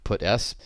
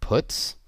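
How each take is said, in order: First: It sounds like 'put' followed by the letter s. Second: It sounds like the ordinary English verb 'puts'. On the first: "constructed in analogy with putc" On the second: "people do pronounce this method puts"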